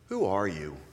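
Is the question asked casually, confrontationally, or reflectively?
reflective. The question sounds thoughtful and reflective. An invitation to reflect on one's deeper identity. "Change it again ... it invites a kind of introspection"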